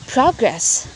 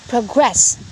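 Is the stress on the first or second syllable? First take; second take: first; second. First: The stress is on the first syllable. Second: The stress is on the second syllable. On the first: It is used as a noun. "the stress will be found in the first syllable" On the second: It is used as a verb. "the stress will be found in the second syllable"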